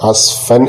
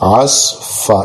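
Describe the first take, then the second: First: The word ends with an n sound. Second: The word ends with a long vowel. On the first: The reciter continues without stopping. "തൻവീനായിട്ട് തന്നെ ഓതിപ്പോവുകയും ചെയ്യും" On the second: The reciter stops at the end of the verse. "അവിടെ നിർത്തിയതുകൊണ്ട് ആസ് ഫ"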